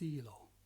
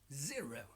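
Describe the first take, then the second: First: The R sound is weak or replaced. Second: The R is a strong growling sound. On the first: The speaker calls it wrong. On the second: The speaker calls it right. "like to make dogs growling sounds"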